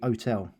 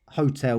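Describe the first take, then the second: First: The word starts without any H sound. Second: The word starts with a clear H sound.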